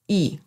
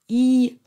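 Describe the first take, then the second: First: The syllable is said with the neutral tone. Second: The syllable is said with the first tone. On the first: "der neutrale Ton" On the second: "Der erste Ton wird als I ausgesprochen"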